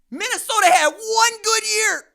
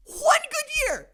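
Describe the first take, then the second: First: Loud and higher, punching the point; loud emphatic rant. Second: Stretched out high and slow, mocking; sing-song it slowly to rub it in; high mocking drawl. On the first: Real, not acted. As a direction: declare it loudly to the room. Ranting about Minnesota's single season. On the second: Repeats to mock Minnesota.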